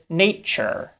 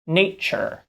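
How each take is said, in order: First: The middle consonant is a ch. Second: The middle consonant is a ch.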